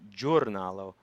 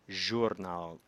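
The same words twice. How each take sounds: First: It begins with a hard, abrupt 'j' sound. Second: It begins with a soft 'zh' sound. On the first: The speaker calls it wrong. "not giornalo" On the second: The speaker calls it right. "as in measure"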